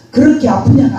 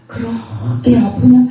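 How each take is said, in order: First: Said in the usual way. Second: "그렇게 아프냐?" drawn out slowly, gently rising on 아프냐; slow, gentle question from a loving father; tender, slow. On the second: Shown as a demonstration. God gently asks his weeping daughter, slow and tender. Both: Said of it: "아니에요".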